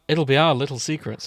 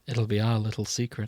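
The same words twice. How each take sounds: First: The line sounds the least creepy of all. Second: The line sounds creepy and unsettling. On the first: The speaker calls it right. "that's as good as it's gonna fucking get" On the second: The speaker calls it wrong. "God, you're creepy"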